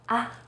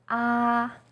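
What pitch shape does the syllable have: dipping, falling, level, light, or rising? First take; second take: light; level. First: The syllable is light and short. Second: The pitch stays high and level. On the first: "you say it in a more light and short way" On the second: "First tone, is high and steady"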